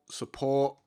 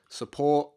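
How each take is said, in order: Both takes have the same delivery.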